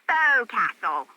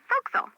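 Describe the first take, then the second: First: The word is said in full, syllable by syllable. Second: The word is squeezed into a short, clipped form.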